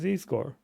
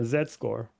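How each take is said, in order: First: The letter is said the non-Canadian way. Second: The letter is said the Canadian way.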